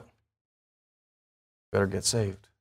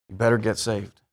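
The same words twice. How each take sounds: First: Drawn out low and soft; very slow, quiet emphasis on better; slow warning. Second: Said in the usual way. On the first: Acted. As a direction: let each word hang as a solemn warning. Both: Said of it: "guess what?".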